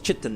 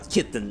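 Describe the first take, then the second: First: The word begins with a CH sound. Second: The word begins with a K sound. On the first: The speaker calls it wrong. "I thought it was pronounced chitin" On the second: The speaker calls it right. "it's actually pronounced kitten"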